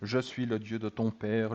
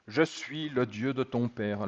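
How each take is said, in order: First: The voice is deep and menacing. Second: The voice is at an ordinary pitch.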